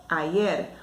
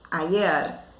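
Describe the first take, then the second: Both takes have the same delivery.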